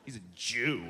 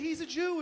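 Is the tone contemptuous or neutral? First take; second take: contemptuous; neutral. First: It is said with a sneering, contemptuous tone. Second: It is said in a plain, neutral tone.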